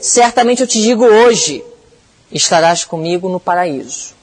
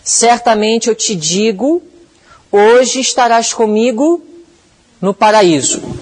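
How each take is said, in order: First: The pause comes after the word 'hoje'. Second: The pause comes before the word 'hoje'.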